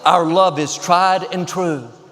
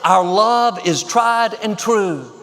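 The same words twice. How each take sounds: First: It is said noticeably louder than normal. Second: It is shouted at full volume.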